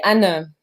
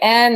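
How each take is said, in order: First: The name is pronounced the German way. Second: The name is pronounced the English way. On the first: "In German, it would be Anne" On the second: "I guess is the right the right English pronunciation"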